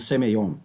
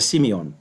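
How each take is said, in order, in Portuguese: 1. A primeira vogal soa como 'eh'. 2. A primeira vogal soa como 'ee'. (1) "geralmente pronunciada como Semeion, pelas pessoas que não conhecem a fonética grega" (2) "mas é Simeon"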